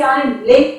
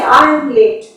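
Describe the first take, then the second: First: The word late carries the stress. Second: The word I carries the stress. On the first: "so you are stressing on the word late" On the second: "so it is I who is stressed"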